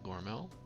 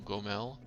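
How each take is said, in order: First: It starts with a hard g and has an r. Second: It starts with a hard g and has no r. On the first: The speaker calls it wrong. "not Gormel" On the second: The speaker calls it right. "Gomel, not Gormel"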